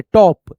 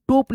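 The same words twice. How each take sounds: First: टॉप with an open "aw" vowel, drawn out; correct reading. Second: टोप with a long closed "o"; wrong reading. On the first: Teacher models the word for students, टॉप with open "aw". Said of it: "ऐसे पढ़ेंगे". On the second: Teacher warns students off a misreading, टोप with closed "oh". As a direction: say टोप with a rounded "oh" vowel. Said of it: "टोप पढ़ेंगे तो गलत हो जाएगा". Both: Shown as a demonstration.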